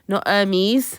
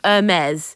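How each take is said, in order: First: The name is given an English pronunciation. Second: The name is given a French pronunciation. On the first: It names the parcel delivery company. The speaker calls it wrong. "it's not a delivery parcel company" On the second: It names the French fashion house. The speaker calls it right. "It's a French word"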